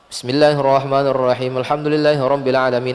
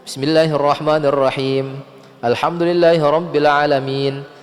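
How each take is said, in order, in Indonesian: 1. Ayat disambung, tetapi vokal akhirnya tidak dibaca. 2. Ada jeda jelas yang memisahkan ayat, tanpa disambung. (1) "dia sambung Al-Fatihah namun dia wakof di setiap ayatnya" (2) "Ada jeda di situ kalau kita mau wakof"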